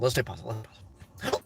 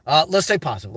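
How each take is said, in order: First: Fading to a whisper. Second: Said in the usual way. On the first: Shown as a demonstration. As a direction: repeat it softer each time until only breath is left. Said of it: "repeats mantra, fading to whisper". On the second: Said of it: "repeats mantra, fading".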